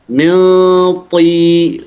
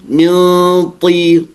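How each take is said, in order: Both takes have the same delivery.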